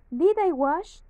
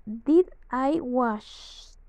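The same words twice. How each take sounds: First: "Did I wash?" with the voice climbing on "wash" like a real question; question intonation. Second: Said in the usual way. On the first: Shown as a demonstration. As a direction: ask it, let "Did I wash?" rise at the end. ("Did I wash?" con entonación interrogativa ascendente) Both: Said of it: "la pronunciación sería de interrogación".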